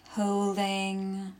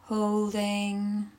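The two takes are said the same way.

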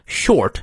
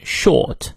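First: "short" with the R clearly sounded; American "short", rhotic vowel. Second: British "short" with silent R, like "shawt"; non-rhotic British "short"; British pronunciation. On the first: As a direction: curl the R in short before the T. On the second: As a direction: drop the R in short, long vowel. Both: Shown as a demonstration. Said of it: "英国人会念short".

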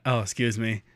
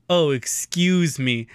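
First: Said in the usual way. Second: "excuse" stretched out slowly, hammed-up; dad's reworked joke. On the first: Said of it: "I went". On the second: Dad topping his kid's joke, "excuse" drawn out. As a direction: draw out "excuse" as a mock punchline. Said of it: "And then my dad goes".

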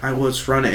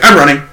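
First: Mock deflated protest. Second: Louder, jumping-in claim; mock eager blurt. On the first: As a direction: imitate a coworker quietly protesting. Coworkers' deflated reply after being beaten. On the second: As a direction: blurt it out before anyone can speak. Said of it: "before anyone else can, like, let a word out".

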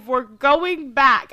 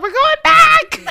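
First: Slow, deliberate, louder insistence. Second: Much higher, louder, slow and laughing; excited laughing declaration. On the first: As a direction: lay down the law slowly. Insisting to Allison. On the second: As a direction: shout it through laughter. Decides to return, laughing. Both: Retold or imitated.

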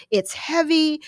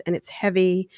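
First: "It's heavy" whined high and pushed; naggy complaint. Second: Mention "it's heavy" gently, just bringing it up; gentle request. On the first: Wife nagging husband about the trash, "It's heavy" whined high. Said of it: "comes across as sort of naggy". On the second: Wife sweetly asking husband to take the trash, "it's heavy" said gently. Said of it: "here comes the meat". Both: Shown as a demonstration.

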